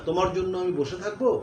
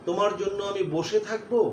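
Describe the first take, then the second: No difference in how they are said.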